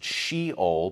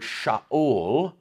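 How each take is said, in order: First: The word is said as she-ol, English style. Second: The word is said as sha-ul, Hebrew style. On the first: "or we would pronounce it Sheol" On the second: "but it's Sha'ul in Hebrew"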